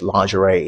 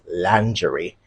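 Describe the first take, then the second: First: The word is said with an American pronunciation. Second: The word is said with a British pronunciation. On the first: "lingerie is the American pronunciation" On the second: "the British pronunciation, ... is lingerie"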